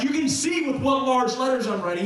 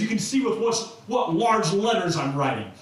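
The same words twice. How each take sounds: First: Emphatic, higher-pitched proclamation; all caps. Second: Said in the usual way. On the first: Acted. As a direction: say it as if written in capital letters. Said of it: "he was all capsing". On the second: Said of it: "one letter where he says".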